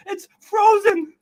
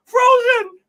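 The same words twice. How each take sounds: First: Said in the usual way. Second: Frozen said again, louder with a fake sob; mock-awed Frozen. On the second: Awed by his frozen fridge, he repeats Frozen louder. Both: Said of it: "I'm gonna cry".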